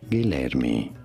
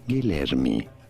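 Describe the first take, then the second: First: It is said with Portuguese pronunciation. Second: It is said with Portuguese pronunciation.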